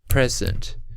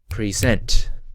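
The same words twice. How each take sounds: First: The stress is on the first syllable. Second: The stress is on the second syllable. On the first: It means a gift. "the first one being stressed, second unstressed" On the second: It means the act of presenting. "unstressed to stressed"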